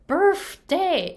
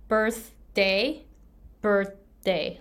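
First: Birthday said with a T sound, higher and louder. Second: Birthday said with a clear D sound. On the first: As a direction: say birthday with a T in the middle. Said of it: "She pronounced T H with F". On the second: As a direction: say birthday with a D, not a T. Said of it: "like, with D". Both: Shown as a demonstration.

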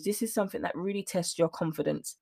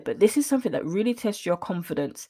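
First: Softer, choked-up delivery; on the verge of tears but holding it together; getting emotional. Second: Said in the usual way. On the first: Real, not acted. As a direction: let the feeling catch in your throat. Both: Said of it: "I'm getting a little bit emotional here".

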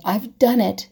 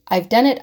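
First: Said in the usual way. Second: The repeated "I've done it." said louder and pressed harder; emphatic repeat. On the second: Real, not acted. To her viewers, confessing she compares too, with emphasis. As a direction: lean into "I've done it." the second time, owning it. Admitting her own habit.

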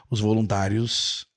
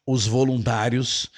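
The two takes are said the same way.

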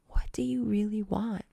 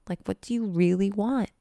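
First: Intimate whisper. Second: Said in the usual way. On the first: Shown as a demonstration. Coach pressing viewers on their desires, intimate whisper. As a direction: whisper it straight into their ear.

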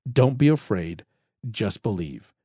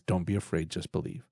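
First: Said in the usual way. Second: Gentle hushed quote. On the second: Acted. Jesus' reply to grieving Jairus.

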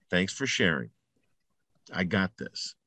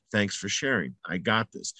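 First: Quiet and calm, low, soft-spoken; calm dismissal. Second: Soft, low, settled; calm dismissal repeated. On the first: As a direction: brush the voice off gently, under your breath. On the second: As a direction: say it again quietly, like a mantra. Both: Shown as a demonstration. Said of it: "those are the most important words".

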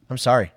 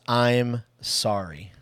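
First: Said in the usual way. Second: Each word drawn out slowly; slow and deliberate. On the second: Shown as a demonstration. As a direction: let the two words land, slowly. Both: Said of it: "it's just two words".

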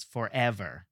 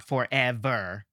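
First: "forever" with "ev" emphasized, ends light and falling; natural for-EV-er stress in "forever", outer syllables unstressed; stress on middle of forever. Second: Slow "forever" with weight on "for" and "ver"; deliberately misplaced stress, FOR-e-VER for "forever"; wrongly stressed forever. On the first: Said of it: "the eh is clearly emphasized". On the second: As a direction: punch the outer syllables of "forever", not the "e". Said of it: "for and ver are clearly not emphasized". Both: Shown as a demonstration.

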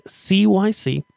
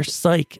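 First: C Y C spelled letter by letter, slowly. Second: Said in the usual way. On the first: Shown as a demonstration. Host spelling the fixture name for listeners, slow letters. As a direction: spell out C Y C, each letter separate.

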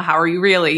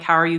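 First: How Are You Really, with "Really" leaned on and falling; stress on really. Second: Said in the usual way. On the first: Shown as a demonstration. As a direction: give "Really" the weight, like a genuine question. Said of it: "really, you know". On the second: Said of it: "instead of just reflex answering that question".

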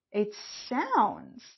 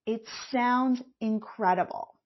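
First: "sounds" leaned on, falling away; stress on sounds. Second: "sounds" pressed hard before incredible; stress on sounds. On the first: Coach stressing "sounds" to her listeners, leaning on the word. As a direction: put weight on "sounds". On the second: Coach emphasizing "sounds" for listeners, stressed word. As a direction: hit "sounds", let incredible follow. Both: Shown as a demonstration. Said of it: "I emphasize the word sounds".

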